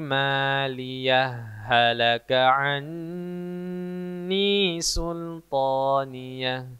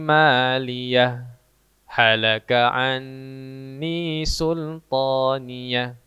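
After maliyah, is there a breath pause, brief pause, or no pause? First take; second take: no pause; brief pause. First: Maliyah runs straight into halaka without stopping. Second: A brief stop after maliyah, with no breath. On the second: "maka dia berhenti sejenak tanpa menarik nafas"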